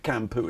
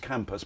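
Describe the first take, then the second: First: The word ends on a vowel, no s. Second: The word ends with an s sound. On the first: The speaker calls it right. "it's actually" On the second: The speaker calls it wrong. "often incorrectly pronounced"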